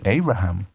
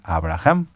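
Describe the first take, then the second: First: The name is said with an English-like pronunciation. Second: The name is said with a Spanish-like pronunciation. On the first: It is a locally adapted form of the name. "se pueda pronunciar el nombre de alguna manera como adaptado" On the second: It is the true, untranslated name. "Pero el nombre es Abraham"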